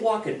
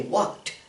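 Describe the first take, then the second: First: The ending is an extra 'id' syllable. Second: The ending is a short 't' sound. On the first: The speaker calls it wrong. "we don't say walk it" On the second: The speaker calls it right. "we say walked"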